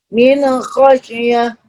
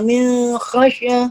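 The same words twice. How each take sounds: First: The n sound is pronounced clearly and distinctly. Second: The n sound is blurred and not distinct. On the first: The speaker calls it right. "Jadi jelas" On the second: The speaker calls it wrong.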